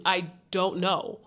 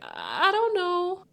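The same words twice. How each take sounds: First: Said in the usual way. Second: High, drawn-out unsure mimicry; imitating an uncomfortable, slow dodge; awkward hesitation. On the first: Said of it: "she's clearly telling you". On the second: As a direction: stall awkwardly, voice sliding up high. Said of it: "like, awkward and".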